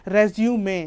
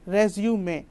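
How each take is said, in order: First: The word ends with a final 'ay' vowel. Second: The same.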